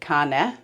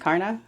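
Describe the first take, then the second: First: The name is pronounced the Danish way. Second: The name is pronounced the English way. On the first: This is the original pronunciation. "in Danish you'd pronounce it" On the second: This is how people locally say it. "most people over here say"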